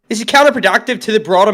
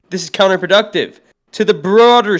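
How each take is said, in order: First: It is read in an Australian accent. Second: It is read in the speaker's usual accent. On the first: The speaker calls it right. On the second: The speaker calls it wrong.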